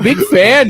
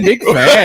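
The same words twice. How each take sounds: First: Put-on high, loud Canadian accent on "big fan"; big eager Canadian "big fan". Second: Put-on Canadian accent. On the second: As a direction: let the second "big fan" settle a bit. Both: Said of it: "can you do the Canadian accent".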